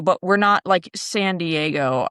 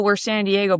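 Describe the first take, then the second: First: "San Diego" drawn out slow and lower; slow, pointed "San Diego"; stressed contrast. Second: Said in the usual way. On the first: Shown as a demonstration. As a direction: lean into "not, like, San Diego" slowly.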